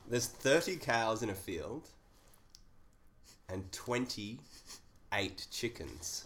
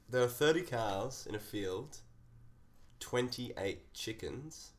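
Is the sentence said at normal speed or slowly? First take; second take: slowly; normal speed. First: It is said very slowly. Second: It is said at normal speed.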